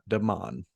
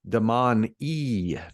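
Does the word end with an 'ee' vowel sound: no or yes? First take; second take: no; yes. First: The word ends without a final vowel sound. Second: The word ends with an 'ee' vowel sound. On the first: The speaker calls it wrong. "not Damon" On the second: The speaker calls it right. "So it is Damon E ... a single E makes an E E sound"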